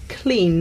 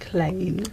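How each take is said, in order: First: The vowel is the present-day English one. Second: The vowel is an Early Modern English one. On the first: "the word for clean nowadays" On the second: "in Shakespeare's time would have been more like clean"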